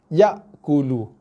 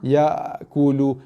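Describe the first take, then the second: First: The glottal stop in the middle is hard. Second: The glottal stop in the middle is weak. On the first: The speaker calls it right. "hamzah dia tak lemau, dia solid keras" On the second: The speaker calls it wrong. "Ada baca dengan hamzah lemau"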